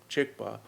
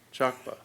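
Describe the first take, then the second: First: The first vowel is a short i sound. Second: The first vowel is a broad ah sound. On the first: The word means the same. "he pronounced the word that means the same" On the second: It sounds like the word for shit. "the way most Tibetans would pronounce the word for shit"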